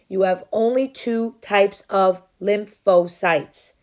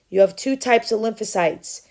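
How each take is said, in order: First: It is said louder and more slowly. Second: It is said at normal loudness and speed.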